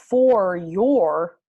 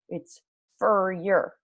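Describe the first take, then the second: First: Both words are said fully and clearly. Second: The words are reduced with little mouth movement. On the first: The speaker calls it wrong. "It's not" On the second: The speaker calls it right. "my mouth doesn't do very much"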